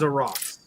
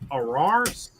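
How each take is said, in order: First: The name is said with an English-style pronunciation. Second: The name is said with a French-style pronunciation. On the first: "but it is a Ross" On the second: "Some people with like a French accent, it kind of sounds like"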